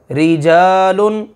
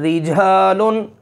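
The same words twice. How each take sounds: First: रिजालुन slowly and clearly, thin ri; slow model reading. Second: रिजालुन with a light, thin ri; thin ra example. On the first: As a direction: draw out रिजालुन for the class, ra thin. (रिजालुन धीरे धीरे, बारीक रा से) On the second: (रिजालुन बारीक रा के साथ) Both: Shown as a demonstration. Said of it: "इसकी मिसाल है".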